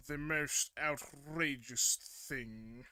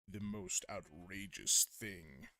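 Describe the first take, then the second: First: Loud, slow heroic announcement. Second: Slow, low villain voice; lightly voiced evil villain. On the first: Acted. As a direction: boom it out like a hero. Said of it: "Oh, the editor hero voice". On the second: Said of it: "like an evil villain kind of voice".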